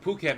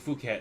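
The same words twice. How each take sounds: First: The name begins with a P sound. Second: The name begins with an F sound. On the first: "but Phuket makes more sense" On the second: "ph making the f sound. So I guess it could be Phuket then"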